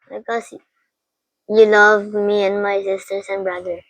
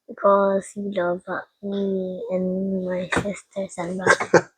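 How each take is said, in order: First: It is said loudly, without hesitation. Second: It is said quietly, with hesitation.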